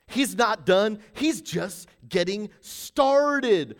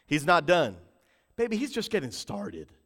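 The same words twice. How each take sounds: First: Slow, stretched preaching delivery; deliberate, weighty repeat; drawn-out emphasis. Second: Said in the usual way. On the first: Real, not acted. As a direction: stretch each word of the promise.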